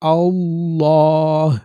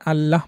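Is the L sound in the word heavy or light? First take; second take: heavy; light. First: The L is thick and full-mouthed. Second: The L is thin and light. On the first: The speaker calls it right. "পোর করে আল্লাহ" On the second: The speaker calls it wrong. "আল্লাহ বললে এটা বারিক হয়ে যাবে, এরকম উচ্চারণটা সঠিক না"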